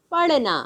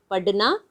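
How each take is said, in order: First: "पढ़ना" with l-like flap, falling end; flapped ढ़. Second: "पढ़ना" with a stopped ढ, straight into ना; hard ढ. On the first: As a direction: flick the tongue before "ना" in "पढ़ना". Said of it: "इसमें अंतर क्या है". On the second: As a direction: stop the tongue firmly in "पढ़ना", no flap. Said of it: "ढ ढक्कन की तरह उच्चारण करेंगे". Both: Shown as a demonstration.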